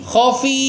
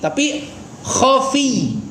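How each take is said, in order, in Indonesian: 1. Bunyi ya terakhir pendek dan tunggal. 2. Bunyi ya terakhir bertasydid dan ditahan. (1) "bukan dibaca khafi"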